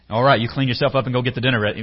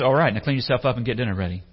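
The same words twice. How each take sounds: First: Fast, louder dad-like order; dad's bark. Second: Fast, brisk master's order. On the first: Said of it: "that sounds like my dad". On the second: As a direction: rattle off the chores like a boss. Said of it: "and the master says". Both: Acted.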